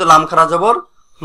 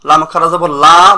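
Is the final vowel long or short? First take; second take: short; long. First: The final vowel is cut short. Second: The final vowel is drawn out long. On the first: The speaker calls it wrong. "বলা যাবে না" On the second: The speaker calls it right. "বলতে হবে অবশ্যই"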